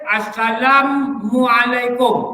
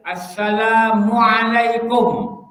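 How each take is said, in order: First: "Assalamualaikum" with the m doubled, "Assalammualaikum"; wrong recitation. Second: "Assalamualaikum" slow, single m; correct recitation. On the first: Teacher imitating a misreading that adds a mim. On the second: Teacher showing the correct greeting reading slowly. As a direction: draw out "Assalamualaikum" evenly with one m. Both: Shown as a demonstration. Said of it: "Tambah mim".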